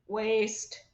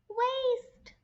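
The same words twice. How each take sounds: First: It is said in a flat, mechanical robot voice. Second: It is said in a tiny, squeaky mouse voice. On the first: "Can you say it in a robot voice?" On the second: "can you say it in a mouse voice?"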